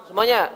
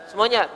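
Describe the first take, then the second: The two takes are said the same way.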